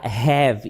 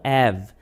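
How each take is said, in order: First: The first sound is a breathy h. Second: The word starts directly with the vowel. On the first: The speaker calls it right. "eu vou falar have" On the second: The speaker calls it wrong. "e não have"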